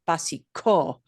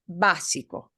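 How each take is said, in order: First: The stress falls on a later syllable. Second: The stress falls on the first syllable. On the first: The speaker calls it wrong. "it's not, por ejemplo, básico" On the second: The speaker calls it right. "We just punch that syllable harder than the I-co syllables"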